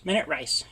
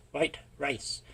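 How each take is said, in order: First: Said in the usual way. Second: Whispered joke aside. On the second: Real, not acted. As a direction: drop to a sly whisper. Joking aside about rice.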